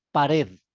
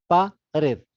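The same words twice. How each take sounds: First: Said in the usual way. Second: "pared" slowly broken into two syllables; split into syllables. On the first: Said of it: "digo, pared". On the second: Shown as a demonstration. Teacher counts the syllables of a word for students, "pared" split syllable by syllable. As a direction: say "pared" as pa, pause, red. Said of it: "dos sílabas".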